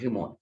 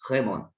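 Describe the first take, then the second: First: The first vowel sounds like i. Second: The first vowel sounds like e. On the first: The speaker calls it wrong. "não é rimon" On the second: The speaker calls it right.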